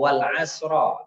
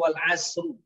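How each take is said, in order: First: The last word ends in an a vowel. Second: The last word ends in an u vowel. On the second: "nggak boleh baca wal asru, salah"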